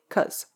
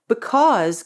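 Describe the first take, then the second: First: The word is cut down to one syllable. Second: The word is pronounced in full.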